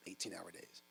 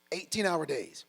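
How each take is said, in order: First: "eighteen-hour days" repeated much softer and lower, as if jotting it down; quiet echo. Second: Said in the usual way. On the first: Retold or imitated. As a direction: mutter "eighteen-hour days" back while writing.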